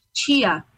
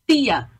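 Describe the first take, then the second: First: "tia" with the t hissed as "tchia"; chiado tia. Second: "tia" with a hard plain t, no hiss; Alagoas tia. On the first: Salvador speaker demoing the capital's chiado, hissed "tchia". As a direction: say "tia" as "tchia", slow and clear. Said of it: "com esse chiado". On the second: Mimicking an Alagoas speaker, hard-t "tia". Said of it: "não falam como na capital". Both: Shown as a demonstration.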